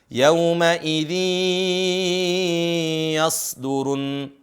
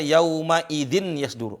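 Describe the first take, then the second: First: The n merges into the next word with long nasal hold. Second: The n is pronounced clearly before the next word. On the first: The speaker calls it right. "Ditahan empat harokat" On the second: The speaker calls it wrong. "Ada yang baca yauma idzin yasduru. Enggak"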